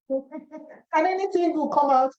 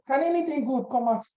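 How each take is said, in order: First: Higher, slow, drawn-out scoff; mocking doubt. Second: Said in the usual way. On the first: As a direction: stretch out "anything" in mock disbelief. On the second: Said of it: "Nathaniel said".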